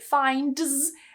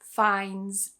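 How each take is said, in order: First: The D sound before the final S is pronounced. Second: The D sound before the final S is dropped. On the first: The speaker calls it wrong. "Instead of trying to say finds and making life way more difficult for yourself" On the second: The speaker calls it right. "just cut the D and say finds"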